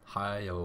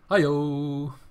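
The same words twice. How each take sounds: First: It is said in a plain, flat way. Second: It is said loudly and dramatically.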